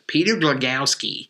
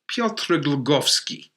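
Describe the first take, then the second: First: The name is said in an Americanized way. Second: The name is said in its original European way. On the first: The name is adapted to North American habits. The speaker calls it wrong. "the hockey pronunciation" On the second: The name keeps its original pronunciation. The speaker calls it right. "as we prefer uh, in Europe"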